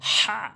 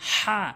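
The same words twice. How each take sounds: First: The h is harsh, from mid-throat. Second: The same.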